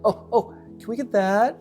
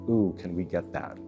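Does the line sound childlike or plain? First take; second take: childlike; plain. First: It is said eagerly, like a little kid. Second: It is said plainly, in a normal adult voice.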